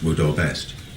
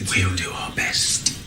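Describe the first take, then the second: First: The words are spoken at a normal length. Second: The words are slightly drawn out and elongated. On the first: This is how an ordinary person says it. "It's not like me saying to you" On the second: This is how the spirit voices say it. "They'll go, ... It's slightly elongated"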